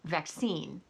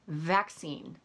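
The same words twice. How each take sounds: First: The word is said with an American pronunciation. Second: The word is said with a British pronunciation. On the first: The speaker calls it right. "instead of vaccine" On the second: The speaker calls it wrong. "Sky Bennett is saying things like vaccine"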